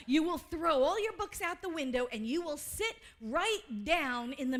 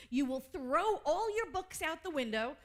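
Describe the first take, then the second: First: Louder, punching "your" and "window"; emphatic repeat. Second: Said in the usual way. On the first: Shown as a demonstration. Preaching the Holmes line to the congregation, louder and emphatic. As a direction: drive the quote home with force. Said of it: "See, I told you he said that".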